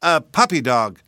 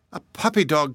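First: Loud, falling "A puppy dog"; proud announcement. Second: High, questioning "A puppy dog"; incredulous cry. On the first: Boy telling mammy what is in his hands, loud answer. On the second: Mammy repeating the boy's answer, aghast question. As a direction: echo "A puppy dog" back in disbelief. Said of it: "cried his mammy". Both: A narrator's reading.

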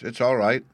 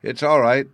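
First: A little louder, reassuring; lightly louder all right. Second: "It's all right" much louder, pitch up; insistent loud repeat. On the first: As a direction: raise the voice slightly on "It's all right". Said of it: "he added in a louder tone". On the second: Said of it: "he merely repeated". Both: A narrator's reading.

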